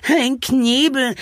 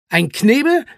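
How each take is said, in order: First: Slow, high, drawn-out wail. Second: Brisk, higher questioning echo. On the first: A narrator's reading. Charlie dreads being gagged, wailing slowly. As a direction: wail it out in dismay. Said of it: "jammerte Charlie". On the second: Acted. Zwolle prepares to explain the gag, echoing the question.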